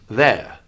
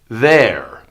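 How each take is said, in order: First: The final R is dropped with a relaxed tongue. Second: The final R is pronounced with a tense tongue.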